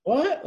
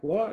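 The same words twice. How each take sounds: First: What shouted much higher and louder; calling What from the water to the boys on the boat; retold shout. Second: Said in the usual way. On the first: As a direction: yell What back across the water, straining to hear. Yelling back from the water.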